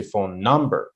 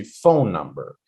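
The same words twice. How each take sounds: First: "phone number" with the weight on NUMBER; stress on second word. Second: "phone number" with PHONE punched, "number" falling away; stress on first word. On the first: Teacher showing students the unwanted stress, "number" stressed in "phone number". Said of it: "we don't put the stress on the second word". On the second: Teacher modeling two-word pairs for students, "phone" stressed in "phone number". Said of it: "stress the first word". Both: Shown as a demonstration.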